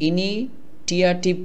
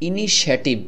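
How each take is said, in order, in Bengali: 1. মাঝের ব্যঞ্জনধ্বনিটি একটি 't' ধ্বনি। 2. মাঝের ব্যঞ্জনধ্বনিটি একটি 'sh' ধ্বনি। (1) "এভাবে করে উচ্চারণ করেন তাহলে হবে না" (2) "এখানে দেখুন ইনিশিয়েটিভ"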